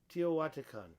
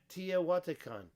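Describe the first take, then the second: First: The first syllable ends in an 'oh' sound. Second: The first syllable ends in an 'ah' sound. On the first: The speaker calls it right. "I think it's T O" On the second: The speaker calls it wrong. "I don't think it's Tia"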